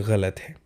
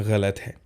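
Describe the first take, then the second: Both takes have the same delivery.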